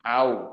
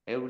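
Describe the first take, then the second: First: The vowel sounds like the 'a' in 'cat'. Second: The vowel sounds like the 'e' in 'bed'. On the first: The speaker calls it right. "એ સાચો ઉપયોગ ઉચ્ચાર છે એનો" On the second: The speaker calls it wrong. "હેવ ગુજરાતીઓ હેવ હેવ નહીં"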